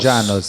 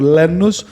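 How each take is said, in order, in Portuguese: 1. O nome começa com som de J. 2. O nome começa com som de L normal.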